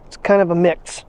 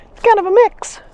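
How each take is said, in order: First: Said in the usual way. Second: High pet talk. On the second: Real, not acted. Owner repeating the icy path report to her dog, high and cooing.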